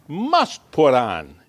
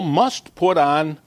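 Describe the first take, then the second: First: "must" pitched up and drawn out slowly; stress on MUST. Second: Said in the usual way. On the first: Shown as a demonstration. Preacher repeats the verse to drive it home, stress on "must". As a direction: lean hard on the word "must". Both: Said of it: "I emphasize the word must".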